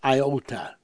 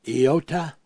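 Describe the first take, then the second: First: The word begins with an 'eye' sound. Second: The word begins with an 'ee' sound. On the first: "if you're pronouncing it the Greek way is iota" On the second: "if you're pronouncing it the Hebrew way is iota"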